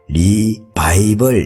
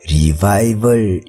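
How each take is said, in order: First: The word ends with a 'bible' sound. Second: The word ends with a 'vival' sound. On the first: It means going back to the Bible. "조금 발음을 가지고 장난을 치면 리바이벌 이렇게 할 수도 있겠죠" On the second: It means a revival. "부흥이라고 리바이벌 이렇게 이야기를 하는 것 같아요"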